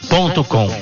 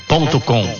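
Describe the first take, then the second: Both takes have the same delivery.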